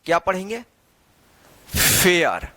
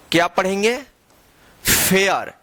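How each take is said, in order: Both takes have the same delivery.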